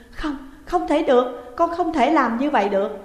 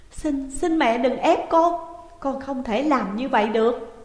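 First: Pleading through tears, raised; a daughter begging, voice wet with tears; tearful plea. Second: Desperate plea. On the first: Daughter refusing her father's plan, tearful plea. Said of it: "nước mắt như mưa". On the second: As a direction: beg her not to force you. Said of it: "Dung thảm não lắc đầu". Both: A narrator's reading.

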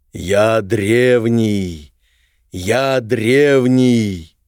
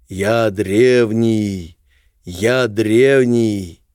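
First: Slow booming ancient voice from the depths; echoing ethereal energy being. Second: The same words as a distant echo; echoing ethereal energy being. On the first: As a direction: drag each word out like a stone giant waking. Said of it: "гулкий голос". (гулкий древний голос) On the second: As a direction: let it ring back like an echo. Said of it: "словно эхо подхватило этот голос". (эхо древнего голоса) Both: Acted.

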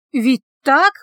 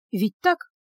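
First: Higher, louder, rising question; alarmed self-doubt. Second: Quick inward check with rising tune; mild self-doubt. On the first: Healer doubts the meat was elk, growing alarmed. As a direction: push the doubt towards alarm. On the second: Healer reassures herself about the meat, mildly unsure. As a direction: ask yourself, a little unsure. Heroine doubting her own reasoning. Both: A narrator's reading.

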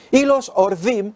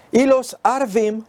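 First: "Orvim" with o, meaning ravens. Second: "Arvim" with a, meaning Arabs. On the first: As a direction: say "Orvim" with an o sound. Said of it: "si la pronunciación debía ser de la otra manera". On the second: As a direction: say "Arvim" with an a sound, slowly. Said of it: "cómo cambia el sentido si lo pronunciamos de otra manera". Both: Shown as a demonstration.

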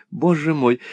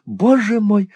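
First: The second боже мой sinking back down; fading dismay. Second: High, loud dismayed cry of боже мой; first боже мой thrown up high in alarm; dismayed exclaim. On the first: (тише, затихающий испуг) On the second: (испуганно восклицает высоко и громко) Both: A narrator's reading. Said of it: "воскликнула мисс Лакриви".

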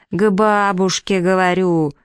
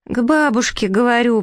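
First: Slow, stretched-out prompt; exasperated prompting. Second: High-pitched naive echo; prince parroting. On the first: Green prompter feeds the prince his line, exasperated. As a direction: spell it out slowly, patience running thin. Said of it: "сколько же надо терпения". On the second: Prince echoes the prompt toward the bushes, parroting high. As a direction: repeat the prompt blankly in a higher voice. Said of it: "повторил принц". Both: A narrator's reading.

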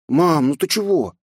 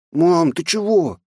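First: Put-on high, slow boy voice; bewildered small boy; puzzled child. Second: Put-on high, slow small boy voice; puzzled frightened boy; scared child. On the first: Boy puzzled by crying mother. (недоумевающий мальчик) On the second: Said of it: "испуганно уставился на меня". (испуганный мальчик) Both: A narrator's reading.

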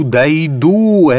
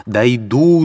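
First: Higher and louder second cry; desperate shout. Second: Raised, rising first cry; determined vow. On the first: Katerina vowing to reach the tsar, loud falling shout. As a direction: hurl the repeat out loud. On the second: Katerina vowing to reach the tsar, first rising cry. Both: Acted.

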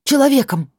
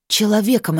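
First: Higher and louder hiss; hissed shout. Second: Hissed. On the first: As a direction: spit the word Человеком louder. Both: A narrator's reading. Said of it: "прошипела она".

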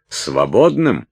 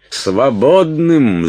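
First: Higher, louder disbelieving question; incredulous echo. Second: High, loud, drawn-out cry; outraged shout. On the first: Уилт echoes Салли's word, incredulous. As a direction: throw the word back in disbelief. Уилт возмущённо переспрашивает перед криком. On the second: Уилт trying to open the door, outraged shouting. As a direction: shout the word slowly in outrage. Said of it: "закричал Уилт". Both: A narrator's reading.

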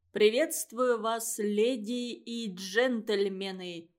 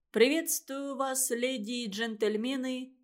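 First: Calm, slow, deadpan greeting; unflappable tone. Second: Said in the usual way. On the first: A narrator's reading. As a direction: say it slowly as if nothing happened. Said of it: "в невозмутимом Пашкином тоне". (невозмутимо и медленно) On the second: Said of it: "запнулся".

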